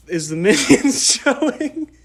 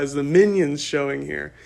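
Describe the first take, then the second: First: High, laughing mock-innocent ask; laughing question. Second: Said in the usual way. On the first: Asking the theater workers, laughing at himself. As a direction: giggle through the question.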